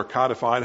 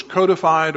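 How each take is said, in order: First: "codified" with a short O, like cod; alternate pronunciation. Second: "codified" with a long O, like code; alternate pronunciation. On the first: Preacher correcting himself, "codified" with short O. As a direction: say "codified" as KAH-di-fied. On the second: Preacher unsure of the word, "codified" with long O. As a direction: say "codified" as COE-di-fied. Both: Shown as a demonstration. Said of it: "however it's pronounced".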